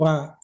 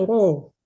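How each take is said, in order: First: The r syllable is light, with an open a. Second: The r syllable is heavy, sounding like ro. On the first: This is the usual regional reading. The speaker calls it wrong. "kita kan biasanya kalau dari Minang itu membaca ra itu ra" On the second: This is the standard reading. The speaker calls it right. "Yang betul itu bacanya ro"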